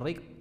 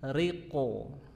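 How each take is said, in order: First: The final q stops short without a bounce. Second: The final q releases with a thick echoing bounce. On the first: The speaker calls it wrong. "bukan riq" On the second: The speaker calls it right. "tapi riqo"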